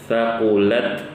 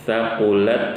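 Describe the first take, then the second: The two takes are said the same way.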